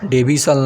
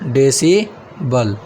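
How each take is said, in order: First: The b and s sounds are swapped. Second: The s comes before the b sound. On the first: The speaker calls it wrong. "डेबिसल नहीं" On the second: The speaker calls it right. "देखिए यहीं आ गया शुद्ध"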